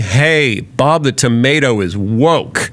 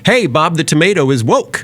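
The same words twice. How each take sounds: First: It sounds cold and disapproving. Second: It sounds warm and admiring. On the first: The remark is meant as an accusation. "it wasn't a compliment anymore... just in the tone and the delivery" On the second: The remark is meant as praise. "it was clear they meant it as a compliment"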